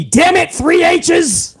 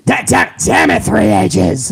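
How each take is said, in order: First: Higher, shouted mock boss; VKM voice. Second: Put-on much lower, gruff old chairman; deep boss impression. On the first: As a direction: bark it like an angry chairman. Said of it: "I did that in the V K M voice". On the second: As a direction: growl it like a grumpy old boss.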